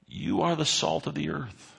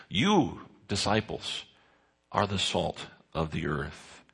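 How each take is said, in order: First: YOU said higher and set apart; stress on YOU. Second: You lifted alone, then disciples and the rest dropping soft; stressed You with pauses. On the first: Preacher explaining the Greek to his congregation, stress on You. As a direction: lean hard on the word You, then let it fall. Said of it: "The you here in the passage grammatically is emphatic". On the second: Preacher spelling out the emphatic you for the congregation. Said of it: "there's an emphasis placed on that word". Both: Shown as a demonstration.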